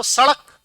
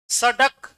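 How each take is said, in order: First: सड़क with a quick retroflex flap ṛ; सड़क with ड़ flapped, never a hard ḍ. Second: सड़क with a hard retroflex ḍ stop; no flap in सड़क, a plain ḍ. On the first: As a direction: flick the tongue out in सड़क, "sa-ṛak". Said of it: "जीभ देखना तेजी से बाहर आएगी". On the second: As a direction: say सड़क as "sa-ḍak", tongue stopping firmly. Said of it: "उच्चारण में फर्क आया". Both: Shown as a demonstration.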